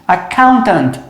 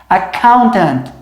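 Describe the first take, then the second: No difference in how they are said.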